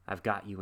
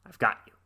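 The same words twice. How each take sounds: First: Said in the usual way. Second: Louder triumphant I've got you, punched on got; gleeful grab. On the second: Retold or imitated. Boy catching the creature in his sack, louder triumph. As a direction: shout it as you snap the sack shut.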